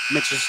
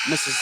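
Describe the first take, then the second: No difference in how they are said.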